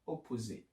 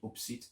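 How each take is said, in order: First: The word is said with all three syllables. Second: The word is squeezed into two syllables. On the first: The speaker calls it right. "that's what you should say" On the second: The speaker calls it wrong. "I used to say opsit"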